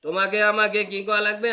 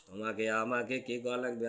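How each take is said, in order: First: Higher, loud preaching call; loud rhetorical question. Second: Soft rhetorical question. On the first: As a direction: throw the question out to the crowd. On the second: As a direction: ask it quietly to the crowd. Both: Shown as a demonstration. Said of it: "তাহলে তোমাকে আমাকে কি করা লাগবে?".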